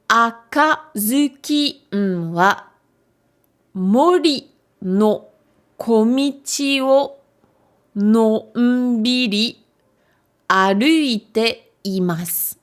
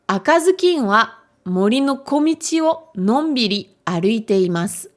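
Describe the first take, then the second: First: It is read slowly. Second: It is read a little faster.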